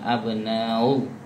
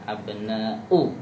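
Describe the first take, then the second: First: The glottal stop before u is softened and weak. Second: The glottal stop before u is strong and clear. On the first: The speaker calls it wrong. "bukan abnau ... Itu kalau itu nanti jadinya tashil" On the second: The speaker calls it right. "U jelas"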